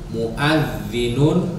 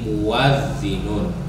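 First: A glottal stop comes before the a. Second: A w sound comes before the a.

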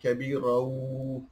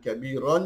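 First: The word ends nasalized, merging into a w sound. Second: The word ends with a clear n sound. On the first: The speaker calls it right. "jadi kabirau" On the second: The speaker calls it wrong. "Bukan daripada bacaan kabiran"

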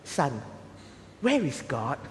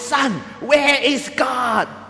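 First: It is said at a normal, quiet volume. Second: It is said in a loud, stern voice.

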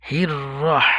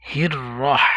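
The two takes are said the same way.

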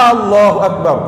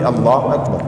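First: The opening vowel is drawn out like a question. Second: The opening vowel is short and plain. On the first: It asks whether God is great. The speaker calls it wrong. "sio jina la Mungu" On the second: It states that God is great. The speaker calls it right. "jina la Mungu ni Allahu akbar"

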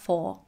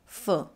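First: The word has a full vowel and an R sound. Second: The word has a weak schwa and no R sound. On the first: The speaker calls it wrong. "not for" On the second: The speaker calls it right. "she drops the R in for and links the F plus schwa"

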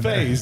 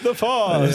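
First: The name is said like 'phase'. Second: The name is said like 'fawns'. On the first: The speaker calls it right. "It's FaZE, FAZE" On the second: The speaker calls it wrong. "How many different pronunciations did they? It's the Fawns"

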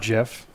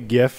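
First: It begins with a soft J sound. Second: It begins with a hard G sound. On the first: The speaker calls it wrong. "It's not GIF" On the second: The speaker calls it right. "The hard G is right"

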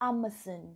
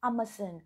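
First: It is said with a British accent. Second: It is said with a British accent.

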